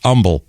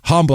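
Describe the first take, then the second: First: The word begins without any H sound. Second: The word begins with an audible H sound. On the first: The speaker calls it wrong. "it's actually it's humble locally" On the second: The speaker calls it right. "and it is humble"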